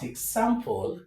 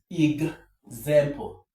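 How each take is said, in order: First: The x is sounded as ks. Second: The x is sounded as gz. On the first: The speaker calls it wrong. "this word is not example" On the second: The speaker calls it right. "but example. Eg, eg, example"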